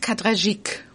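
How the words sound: The name is said the French way.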